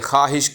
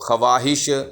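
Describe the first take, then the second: First: No w sound is heard after the kh. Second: A w sound is heard after the kh. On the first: The speaker calls it right. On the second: The speaker calls it wrong.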